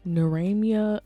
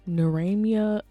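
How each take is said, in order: First: The middle sounds like 'mia' with an m. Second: The middle sounds like 'mia' with an m.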